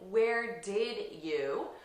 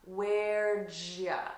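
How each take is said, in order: First: Each word is said separately and in full. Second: The D and Y merge into a J sound. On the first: "I'm not saying" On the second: "we reduce this to "where'd ya?" ... with a J sound"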